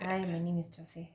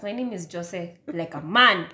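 First: Much softer than usual; quiet introduction. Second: Exasperated, raised-pitch apology, then the name; louder repeat. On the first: Introducing herself to podcast listeners, very quietly. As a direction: say your name barely audibly. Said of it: "Why are you so silent". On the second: Told by co-host to speak up, louder. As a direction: repeat your name with a punch on the ending. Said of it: "Say it louder". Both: Real, not acted.

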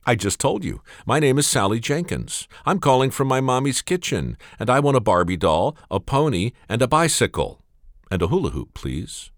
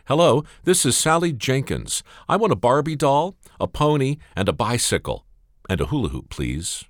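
First: Put-on higher, insistent little girl; a small child patiently repeating herself. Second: Put-on higher, eager little girl; a small child reciting her wish list. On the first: Little girl repeats her list. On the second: Little girl phones Santa.

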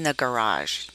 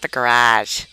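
First: "garage" said softly with its R and a soft zh ending; careful standard pronunciation. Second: Boston-accented "garage", punched louder than the proper one. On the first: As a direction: say "garage" properly as guh-RAHZH. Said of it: "There is an R in that word". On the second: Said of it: "did not allow me to have an accent". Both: Shown as a demonstration.

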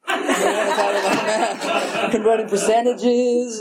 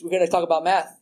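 First: Slow, chuckling through it; laughing. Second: Said in the usual way. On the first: Real, not acted. Sharing at a meeting, amused at doing kid math, laughing. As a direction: laugh at yourself while saying it. Repeats line, then laughs it.

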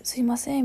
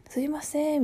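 First: すいません in raised-pitch Kansai intonation; strong Kansai accent. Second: すいません pitched high, in standard accent; standard-Japanese intonation. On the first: Retold or imitated. Coworker calling for attention at work, in Kansai accent. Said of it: "関西弁すごい". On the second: Shown as a demonstration. Showing how people normally say excuse me, in standard accent. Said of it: "普通はさ".

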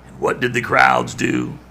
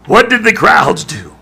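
First: Said in the usual way. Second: Preacher pressing the congregation, louder; louder, higher repeat. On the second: Shown as a demonstration. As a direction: punch WHAT, much higher.

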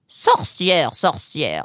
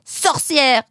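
First: Dismissive echo. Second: High, loud accusing cry; yelled insult. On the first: Acted. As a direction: echo the accusation, unimpressed. Fox echoes the boy's insult. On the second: A narrator's reading. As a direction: hurl the insult from afar. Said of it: "hurla-t-il en direction de la serre".

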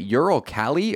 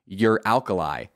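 First: "Ural Kali" as two words, ending in -ee; pronounced Ural KAL-ee. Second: "Uralkali" like "your alkali", ending in -lie; pronounced your-ALKALI. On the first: Podcaster wondering about a sponsor's name, "Ural Kali" ending in -ee. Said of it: "I've also always wondered". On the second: Podcaster trying the other reading, "Uralkali" as your-alkali. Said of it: "if I've been saying it wrong". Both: Shown as a demonstration.

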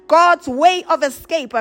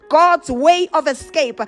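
No difference in how they are said.

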